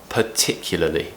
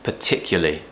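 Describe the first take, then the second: First: It is said carefully with every syllable. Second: It is said fast with syllables dropped. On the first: The speaker calls it right. "really you should be saying" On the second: The speaker calls it wrong. "When we're talking fast, most people will probably just say"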